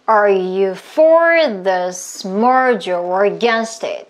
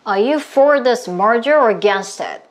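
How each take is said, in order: First: The sentence is spoken at a slow pace. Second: The sentence is spoken somewhat faster. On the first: "숨 마시고" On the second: "조금만 더 빠르게"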